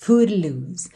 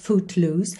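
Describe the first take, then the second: First: The T is a quick light tongue tap. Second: The T is clearly released before loose. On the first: "chegou a fazer assim uma vibraçãozinha da língua no céu da boca" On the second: "com um Tzinho mesmo"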